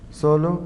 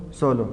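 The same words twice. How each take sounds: First: Solo lifted with a rising end; accented form. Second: Solo dropped with a falling end; unaccented form. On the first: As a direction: say Solo as the accented word, pitch going up. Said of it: "Acentúa solo si es". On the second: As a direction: say solo as the unaccented word, pitch going down. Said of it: "No se acentúa solo". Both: Shown as a demonstration.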